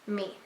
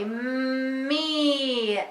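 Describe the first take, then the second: First: The word is said quickly. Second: The word is stretched out slowly.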